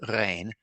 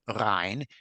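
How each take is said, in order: First: It is said with the standard Yiddish vowel. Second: It is said with the poet's regional vowel. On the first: "in standard Yiddish, it's pronounced rein" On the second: "Gebürtig would have said Rhein"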